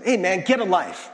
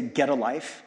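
First: Louder, scornful "Hey, man, get a life" with a punched "get"; mocking put-down. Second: Said in the usual way. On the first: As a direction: sneer it like a dismissive jab. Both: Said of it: "It's usually said in this tone".

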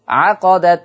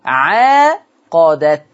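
First: عقدت said as short 'aqadat, no long vowel after the ayn; Hafs without alif. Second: عاقدت very slowly, with a two-count long aa after the ayn; Warsh with alif. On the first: Teacher shows Hafs 'aqadat with no alif. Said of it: "ما فيش ألف بعد العين". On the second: Teacher shows the Warsh long aa in عاقدت. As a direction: stretch the aa in عاقدت, 'aaqadat. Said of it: "بإثبات ألف بعد حرف العين". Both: Shown as a demonstration.

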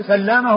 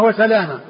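First: سلامة with a held double l, "sallama"; doubled lam. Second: وسلامة with a single l, "wa-salama"; lightened lam. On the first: Teacher introducing two names, سلامة as "sallama". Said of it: "بالتشديد". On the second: Teacher introducing two names, وسلامة as "wa-salama". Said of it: "بتخفيف اللام". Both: Shown as a demonstration.

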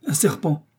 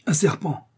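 First: Higher, falling cry of surprise; startled exclamation. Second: Higher, falling exclamation; crying out. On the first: Joe spots a long shape in the grass, startled exclamation. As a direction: exclaim at a sudden sighting. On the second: Kennedy cries out while readying his rifle, startled exclamation. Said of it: "s'écria Kennedy". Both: A narrator's reading.

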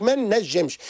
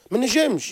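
First: Slow, stress on ما in ما نجمش. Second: Said in the usual way. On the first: Shown as a demonstration. Therapist stressing what the parent says, slow emphasis. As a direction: lean on ما, drawn out. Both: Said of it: "يقول لك ما نجمش".

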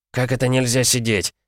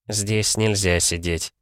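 First: Higher, mildly indignant question; incredulous question, pitched up; indignant challenge. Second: Slow, firm refusal at usual pitch; measured, unsmiling prohibition; unsmiling objection. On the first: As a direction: throw the refusal back in disbelief. Challenges the clerk's refusal. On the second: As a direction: state the rule slowly, no smile. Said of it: "уже без улыбки возразил сотрудник банка". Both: A narrator's reading.

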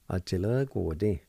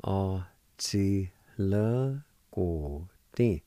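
First: Said in the usual way. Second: A chi le guo ding spoken very slowly, syllable by syllable; slow demo. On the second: Shown as a demonstration. Teacher to students modelling the word, very slow. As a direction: stretch out A chi le guo ding so every sound is clear. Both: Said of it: "It's pronounced like this".

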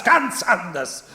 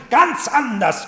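First: "ganz anders" repeated slowly, still high, stressing "ganz"; slower echo. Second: "Ganz anders" cried high and loud, falling at the end; loud insistence. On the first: Heinrich repeats it to the Marchioness, slower and weighted. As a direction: let "ganz anders" fall back slowly and firmly. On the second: Heinrich insists to the Marchioness about Bertha: loud, high "Ganz anders". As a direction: shout "Ganz anders" high with a hard fall. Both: Acted.

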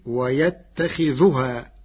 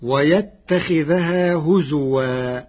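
First: ويتخذها recited "wa-yattakhidhuhaa"; slow recitation, ويتخذها with a u after the dhal; damma on dhal. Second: ويتخذها recited "wa-yattakhidhahaa"; slow recitation, ويتخذها with an a after the dhal; fatha on dhal. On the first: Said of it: "برفع الذال، فتصير". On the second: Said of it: "برفع الذال". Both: Shown as a demonstration.

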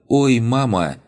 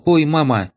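First: High pained cry of surprise; painful yelp. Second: Very high loud pained cry; painful yelp. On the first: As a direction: yelp it out as if it hurts. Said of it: "С болезненным". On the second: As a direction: shriek from a sudden smack. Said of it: "очередному". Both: Acted.

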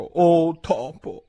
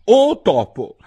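First: Slow, drawn-out "Oh topo", higher, ceremonious; drawn-out formal address. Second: Loud, higher, ceremonious call; formal address. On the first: Alice closing her plea to the mouse, slow and solemn. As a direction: stretch it out like a solemn invocation. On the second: Alice formally addressing the mouse, loud and high. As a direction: hail the mouse like a grand personage. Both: A narrator's reading. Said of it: "il modo più appropriato di rivolgersi a un topo".

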